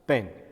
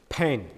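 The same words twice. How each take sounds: First: The p is said without a puff of air. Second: The p is said with a puff of air. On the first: "Indian uh, people pronounce it like a p" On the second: "when it is a British pronunciation"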